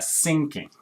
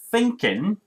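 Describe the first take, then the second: First: The word begins with an s sound. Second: The word begins with a th sound. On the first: The speaker calls it wrong. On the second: The speaker calls it right.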